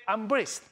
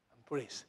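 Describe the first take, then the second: First: "I'm blessed" higher and louder, proclaimed; loud proclamation. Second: "I'm blessed" softly and low, almost to oneself; quiet blessed. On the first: Pastor urging the congregation to proclaim it aloud. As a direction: call out "I'm blessed" boldly. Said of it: "Say again". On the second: Pastor quoting a patient's quiet "I'm blessed". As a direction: murmur "I'm blessed" gently. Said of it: "Say, "I'm blessed." ... Say again". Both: Shown as a demonstration.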